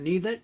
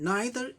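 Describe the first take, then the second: First: The first vowel sounds like 'ee'. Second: The first vowel sounds like 'eye'.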